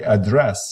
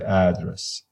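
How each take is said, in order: First: The stress is on the second syllable. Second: The stress is on the first syllable. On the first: "The first syllable will not be emphasized, will not be stressed" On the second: "the stress is at the beginning"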